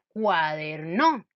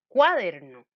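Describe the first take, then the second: First: The stress is on the third syllable. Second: The stress is on the first syllable. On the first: "Si yo pusiera el acento en la no" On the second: "Si yo le pongo a cuaderno el acento en la sílaba cua"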